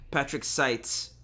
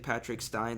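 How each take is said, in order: First: The surname ends with a ts sound. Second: The surname ends with an nz sound. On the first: The speaker calls it right. "I said it wrong" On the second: The speaker calls it wrong. "I'm probably butchering it"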